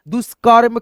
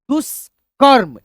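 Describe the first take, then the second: First: Brisk, joined-up word; speed में पढ़ना. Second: Slow teaching read, syllables pulled apart; धीमा, तोड़कर. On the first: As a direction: say it in one go, no breaks. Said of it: "speed में पढ़ने का तरीका". (जोड़कर तेज़ी से पढ़ना) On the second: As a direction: sound it out slowly, piece by piece. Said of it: "पहले आप धीरे धीरे पढ़ते हो". (धीरे-धीरे अक्षर तोड़कर) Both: Shown as a demonstration.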